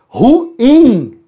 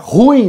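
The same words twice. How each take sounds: First: The vowels are split into two syllables. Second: The vowels are joined into one syllable. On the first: The speaker calls it right. "O correto é ruim. Exatamente, é um hiato" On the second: The speaker calls it wrong. "não é ruim o correto"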